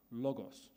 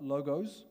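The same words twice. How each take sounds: First: "Logos" with short open o's and a hissed final s; Greek LOGOS. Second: "logos" with long o's and a z ending. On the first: Pastor corrects congregation's Greek, "Logos" said LAW-goss. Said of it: "Not logos, like B M W logo, no. Logos". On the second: Pastor shows congregation the wrong Greek, "logos" rhyming with "go-goes". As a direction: say "logos" like the plural of logo. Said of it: "Not logos, like B M W logo". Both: Shown as a demonstration.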